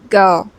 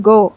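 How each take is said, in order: First: "go" with gliding ow vowel, lower; American-style "gohw"; American accent. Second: "go" with pure round o; plain unglided "go", not American; non-American o. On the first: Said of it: "it's go". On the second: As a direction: hold "go" as a pure o. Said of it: "It's not go". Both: Shown as a demonstration.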